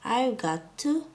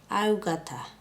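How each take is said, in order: First: Each word of 'got to' is pronounced separately. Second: 'Got to' is blended together into 'gotta'. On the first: "contracted as I've got to" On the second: "sounds like"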